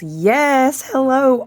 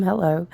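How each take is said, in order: First: Excited hello. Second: Said in the usual way. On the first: Real, not acted. Excited greeting to viewers.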